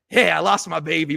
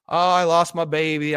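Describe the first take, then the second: First: It sounds carefree and defiant. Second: It sounds mournful and self-pitying.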